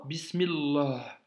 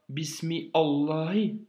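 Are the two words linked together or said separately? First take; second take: linked; separate. First: The two words are linked into one flowing word. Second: The two words are said separately, without linking. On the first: The speaker calls it right. "tu dis Bismillah" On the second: The speaker calls it wrong. "tu ne dis pas Bismi Allahi"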